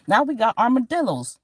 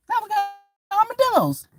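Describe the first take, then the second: First: Said in the usual way. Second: High squeaky disbelief at armadillos; shocked squeal. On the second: Acted. Comic telling the crowd, in a shocked squeal. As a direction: squeal it like you can't believe it.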